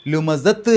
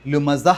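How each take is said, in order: First: ലുമസത്ത് with a sounded t at the end; the wrong way to stop. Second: The right way to stop; correct pause ending. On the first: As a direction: say ലുമസത്ത്, ending on a full t. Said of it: "എന്നല്ല". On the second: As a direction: stop on ലുമസ with a silent h. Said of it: "ഹ് എന്നുള്ള ഉച്ചാരണമാണ് കൊടുക്കേണ്ടത്". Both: Shown as a demonstration.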